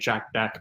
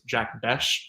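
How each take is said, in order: First: The surname ends with a 'k' sound. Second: The surname ends with an 'sh' sound. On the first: The speaker calls it wrong. "I was always saying pronouncing it Jack Beck" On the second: The speaker calls it right. "but it's Jack Besh"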